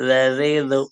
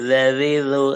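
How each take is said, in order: No difference in how they are said.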